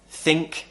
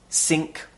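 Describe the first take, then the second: First: It starts with a th sound. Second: It starts with an s sound. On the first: The speaker calls it right. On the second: The speaker calls it wrong.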